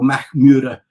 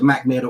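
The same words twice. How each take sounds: First: The name is said with Swedish-style sounds. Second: The name is said with English-style sounds.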